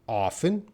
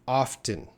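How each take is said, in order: First: The word is said without a T sound. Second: The word is said with a T sound. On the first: "sometimes there's no T sound" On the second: "sometimes there's that T sound"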